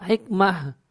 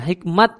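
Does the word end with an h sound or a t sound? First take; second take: h sound; t sound. First: The word ends with an h sound. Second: The word ends with a t sound. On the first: This is the original Arabic way of saying the name. The speaker calls it right. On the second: This is the Turkish way of saying the name. The speaker calls it wrong.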